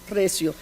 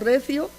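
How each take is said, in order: First: The middle consonant is an s sound. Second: The middle consonant is a th sound. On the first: "ponen en su lugar la S" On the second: "Estoy suponiendo la pronunciación interdental"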